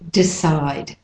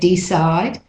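First: The first vowel is a reduced schwa. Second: The first vowel is a full E. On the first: "but it's mainly decide" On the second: "Some people say decide"

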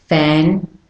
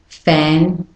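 No difference in how they are said.

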